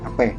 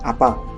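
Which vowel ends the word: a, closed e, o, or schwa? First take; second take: closed e; a. First: The word ends in a closed e vowel. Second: The word ends in an open a vowel. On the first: "Bahasa Musinya"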